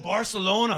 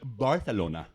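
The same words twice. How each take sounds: First: The c is said with an s sound. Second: The c is said with a th sound. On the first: The speaker calls it wrong. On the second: The speaker calls it right.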